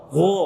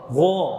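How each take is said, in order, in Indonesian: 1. Vokalnya membulat, bibir dimonyongkan ke depan. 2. Vokalnya membulat, bibir dimonyongkan ke depan.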